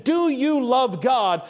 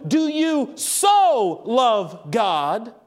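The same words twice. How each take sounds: First: Said in the usual way. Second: Slow question with "so" drawn out; stress on so. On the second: Shown as a demonstration. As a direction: pause around a long "so" before "love". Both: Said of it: "if you change that question to".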